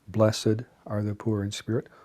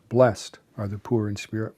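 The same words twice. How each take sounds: First: Blessed is said with two syllables. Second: Blessed is said with one syllable. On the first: "it can be pronounced as a two-syllable word" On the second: "or as a one-syllable word"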